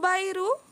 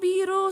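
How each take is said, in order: First: The first vowel sounds like 'eye'. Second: The first vowel sounds like 'ee'. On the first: The speaker calls it wrong. "pero ang name mo Bairu" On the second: The speaker calls it right. "Pronounce Biru. Ah, Biru. Sorry, sorry"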